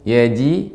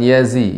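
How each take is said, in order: First: The middle consonant is a j sound. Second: The middle consonant is a z sound. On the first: The speaker calls it right. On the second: The speaker calls it wrong.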